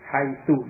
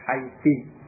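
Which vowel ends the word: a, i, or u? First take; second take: u; i. First: The word ends with an u vowel. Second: The word ends with an i vowel. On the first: "dengan dhammah" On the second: "dengan kasrah"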